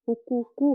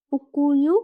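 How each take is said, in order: First: হুকুকু with both k sounds hard; correct K form. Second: হুকুইউ with the middle k gliding away, drawn out; wrong softened K. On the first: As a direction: keep the last k in হুকুকু. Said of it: "হবে". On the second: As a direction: stretch হুকুইউ into a gliding "hukuyu". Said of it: "হবে না". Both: Shown as a demonstration.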